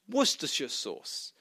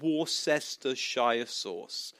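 First: Worcestershire is said with few syllables. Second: Worcestershire is said with many syllables. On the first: The speaker calls it right. "It's actually pronounced" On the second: The speaker calls it wrong. "he's saying it wrong"

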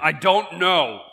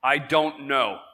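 First: It is said loudly with lively enthusiasm. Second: It is said plainly, without much energy.

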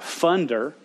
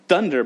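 First: The word starts with an f sound. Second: The word starts with a th sound. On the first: The speaker calls it wrong. "but funder, because he couldn't say that" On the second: The speaker calls it right. "Not thunder"

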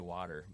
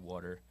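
First: It is said in the local accent. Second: It is said in a Long Island accent.

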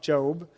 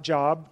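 First: The vowel is long, like 'Jobe'. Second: The vowel is short, like 'job' meaning work. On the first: The speaker calls it right. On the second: The speaker calls it wrong. "not Job"

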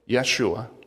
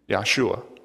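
First: The name is said in its Aramaic form. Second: The name is said in its Hebrew form. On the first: "The other is Aramaic" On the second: "One's Hebrew"

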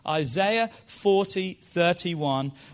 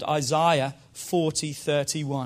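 First: It is said in a non-English accent. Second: It is said in an English accent.

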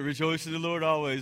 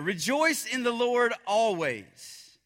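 First: It is said in a weary, fed-up tone. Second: It is said in a passionate, lively tone.

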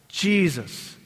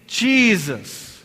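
First: It is said plainly, without extra force. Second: It is said with strong, heartfelt conviction.

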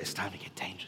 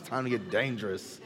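First: The phrase is whispered softly. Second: The phrase is said in a full voice. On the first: The speaker calls it wrong. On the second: The speaker calls it right.

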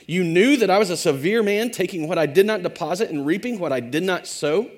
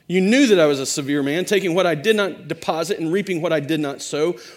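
First: It is read as a question. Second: It is read as a plain statement.

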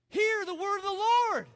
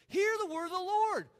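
First: It is said forcefully, with passion. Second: It is said calmly, without much passion.

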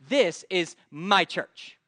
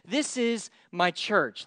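First: It is said sarcastically, stressing my. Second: It is said sincerely, without sarcasm.

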